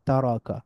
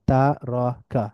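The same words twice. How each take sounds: First: তারাকা as one quick joined word, ta-ro-ka; blended together. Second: তারাকা as three separate beats, ta, ro, ka; syllable by syllable. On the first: Teacher reading joined-up, তারাকা blended into one word. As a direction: run তারাকা together with a fall. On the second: Teacher breaking down the word, তারাকা syllable by syllable. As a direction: split তারাকা slowly into syllables. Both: Shown as a demonstration. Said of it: "একটু মিলিয়ে মিলিয়ে পড়ব".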